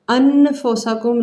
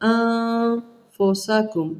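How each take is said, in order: First: The n is pronounced clearly and fully. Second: The n is hidden as a nasal sound. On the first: The speaker calls it wrong. "नहीं करना" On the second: The speaker calls it right. "नून इख्फा छुपाया"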